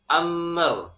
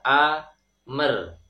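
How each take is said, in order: First: The m flows smoothly straight into the r. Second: An extra vowel sounds between the m and r. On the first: The speaker calls it right. "sempurnakan huruf mim beserta sifat e, tawasudnya, sifat bainiyah, jadi sedikit mengalir" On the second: The speaker calls it wrong. "seperti me dalam bahasa Indonesia. Ini juga tidak tepat"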